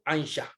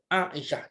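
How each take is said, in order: First: It begins with one gliding ai diphthong sound. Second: It begins with separate vowels, long a then i. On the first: The speaker calls it wrong. "Jangan kita baca Aisyah" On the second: The speaker calls it right. "Nama isteri Nabi adalah dibaca Aisyah"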